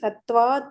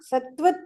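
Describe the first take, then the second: First: The second syllable has a long vowel. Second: The second syllable has a short vowel. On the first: The speaker calls it right. "ಅದು ದೀರ್ಘ" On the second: The speaker calls it wrong. "ಸತ್ವತ್ ಅಂದ್ರೆ"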